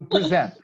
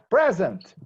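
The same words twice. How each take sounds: First: The stress is on the second syllable. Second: The stress is on the first syllable. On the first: It is the verb meaning to offer or show. "is a verb to present. The intonation is in the second syllable, not in the first syllable" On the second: It means being here at roll call. "when I make a, a roll call"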